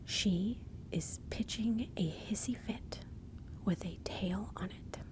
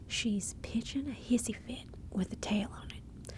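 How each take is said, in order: First: Slow, deliberate enunciation of the saying; slow, spelled-out repeat. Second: Lively, lilting Southern saying; Southern accent. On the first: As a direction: lay it out slowly, phrase by phrase. Same saying repeated slowly, word by word. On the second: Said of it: "in a Southern accent". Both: Shown as a demonstration.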